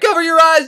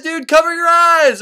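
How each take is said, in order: First: High, loud cry to cover up; high urgent shout; urgent warning. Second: High, loud and drawn out slowly; slower, louder pleading shout; desperate repeated shout. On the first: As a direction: yell it fast before Medusa looks. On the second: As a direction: stretch the second warning into a panicked yell. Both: Acted. Virgil warning Dante of Medusa.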